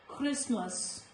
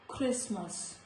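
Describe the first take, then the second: The two takes are said the same way.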